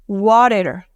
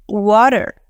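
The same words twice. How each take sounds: First: It is said in an American accent. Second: It is said in an American accent.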